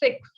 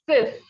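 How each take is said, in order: First: The word ends with a ks sound. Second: The word ends with a plain s sound. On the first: The speaker calls it wrong. "You may pronounce it as six. No, be careful. Six is in English" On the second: The speaker calls it right. "In French, it is six"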